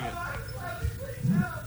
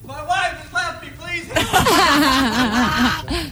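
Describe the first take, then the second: First: It is shouted less loudly. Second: It is screamed more loudly.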